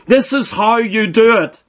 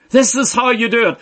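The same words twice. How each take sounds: First: Said in the usual way. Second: Same words, said faster and lighter; quicker repeat. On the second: Shown as a demonstration. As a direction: rush the repeat a little.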